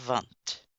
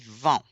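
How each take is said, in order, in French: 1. Le mot finit par un son t audible. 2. Le mot finit sur la voyelle, sans t. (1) "pas vente" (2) "on prononce pas la consonne finale. On dit vent"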